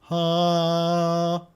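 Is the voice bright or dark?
bright. The voice has a brighter, normal timbre.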